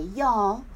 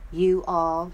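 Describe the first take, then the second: First: It is said as one contracted word. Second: It is said as two separate words. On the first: "they say y'all, which I do sometimes" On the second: "instead of saying you all"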